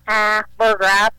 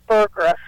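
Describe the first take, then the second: First: The A vowel is held longer. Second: The A vowel is clipped short. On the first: This is the American way of saying the name. "in America, we say Burgraff. Like, the A is like" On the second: This is how the name is said in Germany. "like in Germany, they shorten it, like"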